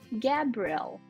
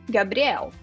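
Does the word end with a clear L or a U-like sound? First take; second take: clear L; U-like sound. First: The final L is clearly pronounced. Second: The final L sounds like a U. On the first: "no inglês esse L, ele é muito importante. Então eu falo Gabriel" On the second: "A gente termina quase com u"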